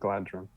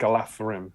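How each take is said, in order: First: The middle consonant is a hard 'd' sound. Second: The middle consonant is a soft 'th' sound. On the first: The speaker calls it wrong. "not Galadrim" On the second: The speaker calls it right. "it's Galathrim, D H is the"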